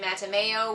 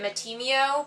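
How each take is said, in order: First: The name has a 'may' sound like mayonnaise. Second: The name has no 'may' sound in it. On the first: The speaker calls it right. "I think it's supposed to be Matameo, which sounds like may uh, mayonnaise" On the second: The speaker calls it wrong. "I always pronounced it Matimeo"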